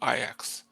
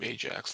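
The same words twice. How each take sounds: First: The name is said the Dutch way. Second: The name is said the English way. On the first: This is the name of the first character. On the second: This is the name of the character reborn as champion.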